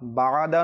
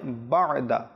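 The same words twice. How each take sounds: First: বা'দা with the first vowel stretched long as baada; wrong pronunciation. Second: বা'দা short and clipped as bada, no stretch on বা; correct pronunciation. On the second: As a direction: say বা'দা crisply without lengthening the first vowel. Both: Shown as a demonstration. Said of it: "এটা হবে not বা'দা".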